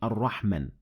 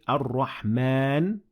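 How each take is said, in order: First: The vowel after the m is short. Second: The vowel after the m is held long. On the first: The speaker calls it wrong. "not Ar-Rahman" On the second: The speaker calls it right. "So we say Ar-Rahman"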